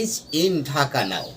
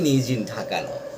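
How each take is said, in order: First: The words are kept separate without linking. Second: The words run together with linked sounds. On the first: The speaker calls it wrong. "No, in this, not in this way" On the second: The speaker calls it right. "The proper way, and suitable in rhythmic way"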